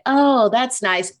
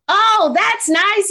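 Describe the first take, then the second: First: It is said flatly with low energy. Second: It is said excitedly with high energy. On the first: The listener does not really care. The speaker calls it wrong. "I don't want you to be like" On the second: The listener is genuinely enthusiastic. The speaker calls it right. "high energy"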